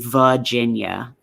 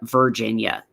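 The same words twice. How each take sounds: First: It is said with a Southern-sounding pronunciation. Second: It is said in a standard, non-Southern way. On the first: The speaker calls it wrong. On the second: The speaker calls it right.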